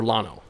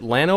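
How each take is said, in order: First: Lano with an open back A, LAH-noh; pronunciation option. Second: Lano with a short front A, as in "land"; pronunciation option. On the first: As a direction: say Lano with "ah" in the first syllable. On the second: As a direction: say Lano as LAN-oh. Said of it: "is it Lano or Lano". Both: Shown as a demonstration.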